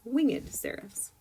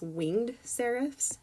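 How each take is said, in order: First: Winged is said as two syllables. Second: Winged is said as one syllable. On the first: The speaker calls it right. "that little emphasis over the E" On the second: The speaker calls it wrong. "instead of pronouncing this"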